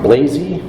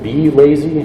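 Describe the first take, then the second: First: It is said as one blended word. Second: It is said as the letter B plus lazy. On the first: "Blazy, or is it B Lazy?" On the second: "I'm going to go with B Lazy because it's lazy loading images"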